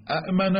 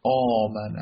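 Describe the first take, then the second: First: اَأْمَنَ with both hamzas sounded, a-'m-ana; اَأْمَنَ spoken with the hamza stop, a bit higher; with two hamzas. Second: آمَنَ opened with one drawn-out long aa; آمَنَ with a long alif in place of the hamza. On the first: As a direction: say اَأْمَنَ with a glottal stop before the m. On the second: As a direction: stretch آمَنَ into aamana with no stop. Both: Shown as a demonstration.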